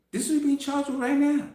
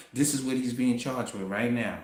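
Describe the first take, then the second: First: Higher and faster, hammering it home; much higher, rushed insistence; emphatic repeat. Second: Said in the usual way. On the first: Shown as a demonstration. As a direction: say it again, urgently.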